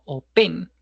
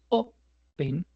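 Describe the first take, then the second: First: The stress is on the second syllable. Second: The stress is on the first syllable. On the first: The speaker calls it wrong. "no open" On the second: The speaker calls it right. "es open"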